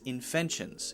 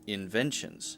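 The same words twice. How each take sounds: First: The consonant after 'in' sounds like an F. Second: The consonant after 'in' sounds like a V. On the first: The speaker calls it wrong. "So I heard an F instead of a V" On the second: The speaker calls it right. "instead of a V"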